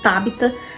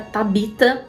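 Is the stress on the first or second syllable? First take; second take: first; second. First: The stress is on the first syllable. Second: The stress is on the second syllable. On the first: "eu vi várias pessoas falando Tabita" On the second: "Na minha cabeça era Tabita, porque não tem o acento no A"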